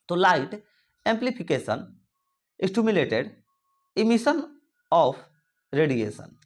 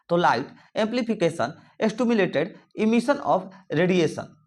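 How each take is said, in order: First: It is said slowly. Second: It is said rather fast.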